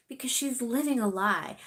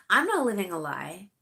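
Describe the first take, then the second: First: Said in the usual way. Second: "not" louder with a rise; stress on NOT. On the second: Real, not acted. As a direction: punch "not" in "I'm not living". Contrasting herself with her sister.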